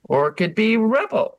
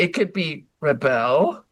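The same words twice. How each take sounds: First: Rebel said REB-el, stress on the first syllable; rebel as a noun. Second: Rebel said re-BEL, stress on the second syllable; rebel as a verb. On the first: Contrasting the second reading, noun REB-el. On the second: Showing friends the two readings, verb re-BEL. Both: Shown as a demonstration. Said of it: "It could be rebel or it could be rebel".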